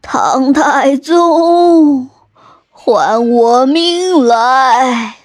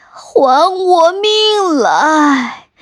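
First: Slow, whispered ghostly moan; a drawn-out eerie whisper from a vengeful ghost; ghost wail. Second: Slow, high, crying ghost shout; ghost wail. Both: Acted. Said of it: "还生气地哭喊着".

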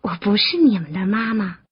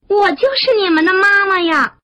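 First: Gentle, understated denial after a chuckle; amused goldfish. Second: High, emphatic motherly declaration; loud calling. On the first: Goldfish correcting the mistaken tadpoles, gently amused. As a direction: correct the little ones kindly, without pushing. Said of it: "大金鱼笑着说". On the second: Frog revealing herself to her tadpoles, high calling. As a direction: proclaim it joyfully to the little ones, pitched up. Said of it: "大声地喊". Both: A narrator's reading.

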